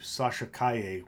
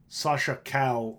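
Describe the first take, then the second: First: The surname ends with an 'ay' sound. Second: The surname ends with an 'l' sound. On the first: The speaker calls it right. "which is evidently what it's supposed to be" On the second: The speaker calls it wrong. "when I say that"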